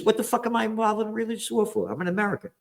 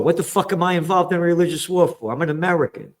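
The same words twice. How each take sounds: First: Rattled off high, fast and softer, mocking; mock attitude. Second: Said in the usual way. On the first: Replaying his own outburst as a quick high mocking send-up. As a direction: toss the line off fast and high as a sneering send-up. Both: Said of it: "Yeah, that's the attitude".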